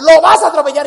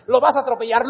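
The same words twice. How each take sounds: First: Sudden loud repeat; much louder alarmed repeat; mock yell. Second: Said in the usual way. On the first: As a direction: blast the repeat as mom panics. Mom's road rage retold.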